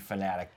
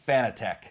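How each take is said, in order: First: The last syllable sounds like 'tic'. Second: The last syllable sounds like 'tech'. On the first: This is the official pronunciation. "it's supposed to be Fanatic" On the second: This is how most people say it. "the majority of people say Fanatec"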